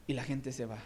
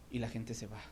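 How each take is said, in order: First: Said in the usual way. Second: Soft, low "Y la gente se va"; quiet. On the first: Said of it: "repeated line, second firmer". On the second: Shown as a demonstration. Preacher repeating "Y la gente se va" softly to the church. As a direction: drop "Y la gente se va" to a hush. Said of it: "repeated line, first softer".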